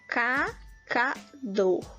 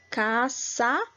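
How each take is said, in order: First: The middle consonant is a K sound. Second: The middle consonant is an S sound. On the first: The letter has no cedilla. "Se eu não tivesse essa cedilha aqui, seria cacador" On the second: The letter has a cedilla. "então ficou com o som de S"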